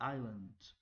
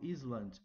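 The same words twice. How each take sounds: First: The s sound is silent in the word. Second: The s sound is pronounced in the word. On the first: The speaker calls it right. "é island" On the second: The speaker calls it wrong. "Eu não falo island"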